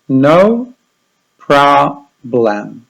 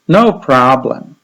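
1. Ta fraza jest wypowiadana wolno. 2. Ta fraza jest wypowiadana szybciej. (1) "powtórzymy 2 razy powoli" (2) "I raz szybciej"

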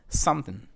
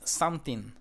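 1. La segunda sílaba casi no se oye. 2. Ambas sílabas se pronuncian completas y claras. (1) "es something. Casi no suena esta parte" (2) "No es something"

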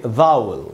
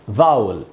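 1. शब्द का अंत घटी हुई 'ul' ध्वनि से होता है। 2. शब्द का अंत घटी हुई 'ul' ध्वनि से होता है।

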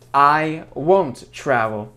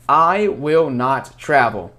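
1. Слова сокращаются до более коротких форм. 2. Каждое слово произносится полностью, без сокращений.

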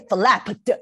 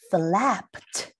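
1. 这个结尾是响亮、饱满的 ed 音。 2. 这个结尾是轻轻的、柔和的 t 音。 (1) "If you say flapped, oh, that is really difficult. 如果你把ed 的声音念得很大声" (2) "后面的ed 也要给它轻轻的念，所以它念起来就像t 的声音"

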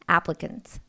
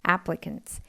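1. 가운데 음절은 슈와로 약화됩니다. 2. 가운데 음절은 슈와로 약화됩니다.

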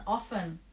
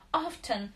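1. Звук "t" не произносится. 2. Звук "t" четко произносится. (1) "буква Т не читается" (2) "вы встречали людей, которые говорят often. Где-то в Британии такие есть, это не мы"

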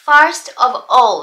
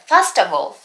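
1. それぞれの単語は別々に言います。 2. 単語がつながって一つのまとまりになります。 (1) "普通の日常会話でネイティブは言わないですね" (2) "つながって出てくる"

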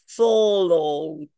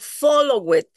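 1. La terminación no añade ninguna sílaba extra. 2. La terminación se dice como una sílaba extra. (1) "la D absorbe el sonido" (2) "yo no digo follow it"

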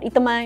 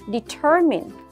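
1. Âm tiết cuối nghe giống 'my'. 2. Âm tiết cuối nghe giống 'mean'. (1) "cái này mình không đọc là my nhá" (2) "mà là mean"

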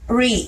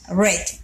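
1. La vocal es larga, como en need. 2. La vocal es corta, como en bed. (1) "En el tiempo presente simple, decimos read" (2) "en el tiempo pasado, la pronunciación es la misma que la del color rojo"

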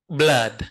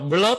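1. Nguyên âm là âm 'uh' ngắn. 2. Nguyên âm là âm 'oo' dài. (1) "nửa á nửa ớ nè" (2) "Bạn nào đọc là blood không đúng đâu nha"

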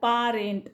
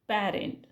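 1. पहिला स्वर लांब उघडा 'ah' आहे. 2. पहिला स्वर 'cat' सारखा पुढचा 'a' आहे. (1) "आपण ह्याचा उच्चार पारेंट असा नाही करत" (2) "सो याला उच्चार करतो आपण पॅरेंट"

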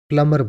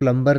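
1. बीच में कोई b की ध्वनि सुनाई नहीं देती। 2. बीच में b की ध्वनि सुनाई देती है। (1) "प्लमर बोला जाता है। इसमें बी भी साइलेंट होता है" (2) "इंग्लिश में इसको प्लम्बर नहीं बोला जाता है"

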